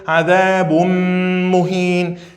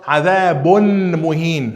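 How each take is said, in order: First: The n merges into the m with nasalization. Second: The n is pronounced clearly before the m. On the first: The speaker calls it right. "a gente vai ter que fazer idgham com nasalização" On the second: The speaker calls it wrong. "Não fala adabun muhin"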